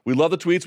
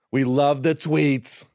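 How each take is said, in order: First: Said in the usual way. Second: Slow, drawn-out bad Trump; badly faked Trump voice; terrible Trump. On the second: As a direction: stretch it out in a half-hearted Trump impersonation. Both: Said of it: "my terrible Trump impression".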